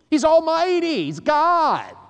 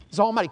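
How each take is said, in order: First: High, loud proclamation of He's almighty; preaching shout. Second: Said in the usual way. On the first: Real, not acted. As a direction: belt out He's almighty to the room. Preacher shouts God's power.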